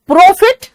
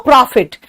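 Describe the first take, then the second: First: प्रॉफिट as "PROH-fit", high and loud; high, loud rounded o in प्रॉफिट; round-mouthed mock प्रॉफिट, rising; Haryanvi pronunciation. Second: प्रॉफिट as "PRAA-fit", open aa; wide open vowel in प्रॉफिट; Allahabad-style pronunciation. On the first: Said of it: "और जो हरियाणा वाले". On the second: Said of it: "वो मुंह और फाड़ देते हैं".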